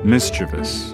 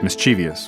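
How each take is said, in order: First: The word has the speaker's current pronunciation. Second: The word has the speaker's former pronunciation. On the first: The speaker calls it right. "one word I didn't know I was mispronouncing all this time" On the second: The speaker calls it wrong. "It's not mischievous, which I had thought"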